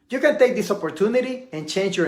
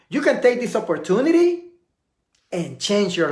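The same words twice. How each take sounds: First: It is said straight through without any pause. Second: A silent pause breaks the sentence before the end. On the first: The speaker calls it wrong. "I didn't take a pause" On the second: The speaker calls it right. "watch how it looks when you take a pause"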